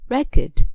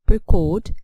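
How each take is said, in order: First: The stress is on the first syllable. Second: The stress is on the second syllable. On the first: It is used as a noun. "for nouns the stress falls on the first syllable" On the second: It is used as a verb. "for verbs we stress the second syllable"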